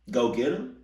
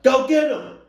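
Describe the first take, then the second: First: Questioning repeat with rising end; incredulous echo. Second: Very high, loud imitation yell; mock yell. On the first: Acted. Reactor echoing mom's order in disbelief, rising question. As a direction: throw the order back as a question. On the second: Listener imitating mom sending uncle off, full-volume yell. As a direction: holler it out high, mimicking the mom. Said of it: "She yells out".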